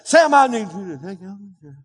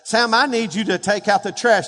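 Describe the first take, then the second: First: The voice fades and mumbles after the opening words. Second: Every word is said clearly and audibly throughout. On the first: Only the first part of the request gets through. The speaker calls it wrong. "Don't say, ... I got the first part. I need the whole part" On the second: The listener is meant to hear the whole request. The speaker calls it right. "you're going to have to look me in the eye and say"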